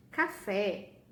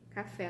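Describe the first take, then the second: First: Café said louder, falling, stressing fé; pronunciation demo. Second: Said in the usual way. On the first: Shown as a demonstration. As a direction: say Café clearly with a strong open fé. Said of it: "café, a nossa última é o E". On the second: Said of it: "a nossa última é o E".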